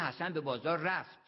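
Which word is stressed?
رفت. The stress is on went.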